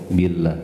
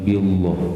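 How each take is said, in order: First: The L sound is light and thin. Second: The L sound is heavy and thick. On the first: The speaker calls it right. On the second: The speaker calls it wrong.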